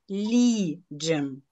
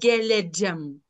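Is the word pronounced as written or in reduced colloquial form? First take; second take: reduced colloquial; as written. First: The word has reduced, raised vowels like colloquial speech. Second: The word keeps its written vowels, closer to spelling. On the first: The speaker calls it right. "а геліджем. І це вірно" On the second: The speaker calls it wrong. "Не просто"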